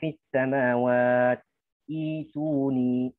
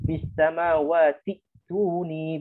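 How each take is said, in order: First: A stop comes before the last word. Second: The words run together without a stop. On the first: The reader stops and restarts at the next word. "kalau kita waqaf di samawat ibtida dari ituni" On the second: The reader joins the two words in one breath. "kalau kita mewasalkan fis samawat ke ituni dibaca dengan tahqiq hamzanya"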